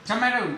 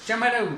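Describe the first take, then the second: No difference in how they are said.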